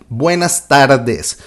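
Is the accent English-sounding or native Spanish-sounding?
native Spanish. It is said with a native Spanish accent. This is how a native speaker would say it. "don't worry if you don't sound like Buenas tardes"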